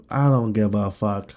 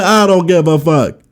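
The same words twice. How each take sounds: First: Said in the usual way. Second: Higher, louder, hammed-up yell; shouted retort. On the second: Shown as a demonstration. Redoing his outburst at people who lecture him, hammed-up shout. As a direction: bark it back at them in mock fury. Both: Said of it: "I forgot how I did it".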